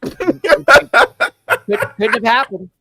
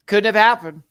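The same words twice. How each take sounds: First: Loud, high laughing denial. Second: Said in the usual way. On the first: Real, not acted. Host laughs off nearly saying the wrong name. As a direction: laugh it off loudly. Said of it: "laughing denial". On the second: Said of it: "repeats calmer".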